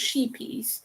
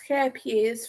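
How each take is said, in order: First: The name is said like English 'sheepies'. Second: The name is said without the English 'sheepies' sound. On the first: The speaker calls it wrong. "It's not pronounced sheepies" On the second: The speaker calls it right. "that's how it is pronounced"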